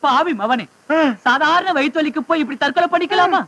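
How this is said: It is spoken in a sad, mournful tone. "சோகமா சொல்லியா?"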